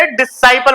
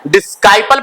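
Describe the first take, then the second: First: "डिसाइपल" with silent c, di-SAI-pal; correct pronunciation. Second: "डिसाइपल" misread with a k, dis-KAI-pal; wrong pronunciation. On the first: Teacher offers class the right reading, "डिसाइपल" as di-sai-pal. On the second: Teacher quizzes class with the wrong reading, "डिसाइपल" as dis-kai-pal. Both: Shown as a demonstration. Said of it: "डिसाइपल पढ़ोगे".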